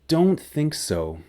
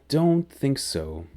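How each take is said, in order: Both takes have the same delivery.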